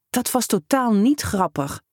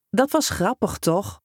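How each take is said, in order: First: Hissed. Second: Teasing. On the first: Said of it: "siste hij". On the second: Prankster teasing upset boy. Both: A narrator's reading.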